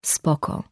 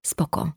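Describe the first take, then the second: First: Breathed, voiceless echo of the word; a toneless whispered echo; unvoiced echo. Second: A quiet, much softer mutter. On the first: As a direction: let it fall away as a bitter breath. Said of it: "Ale nic nie było". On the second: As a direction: mumble it without looking up. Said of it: "mruknął". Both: A narrator's reading.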